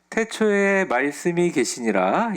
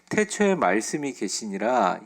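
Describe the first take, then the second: First: The voice is pitched higher. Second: The voice is pitched low. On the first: "좀 피치를 올릴까요?" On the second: "제가 목소리가 좀 낮아서"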